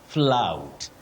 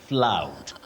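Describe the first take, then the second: Both takes have the same delivery.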